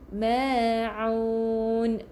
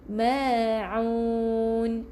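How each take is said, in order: Both takes have the same delivery.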